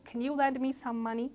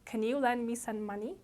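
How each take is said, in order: No difference in how they are said.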